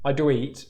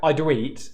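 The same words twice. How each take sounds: First: The oo vowel slides early into the next sound. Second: The oo vowel slides early into the next sound.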